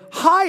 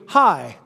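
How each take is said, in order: First: It is said with excitement. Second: It is said plainly, without excitement.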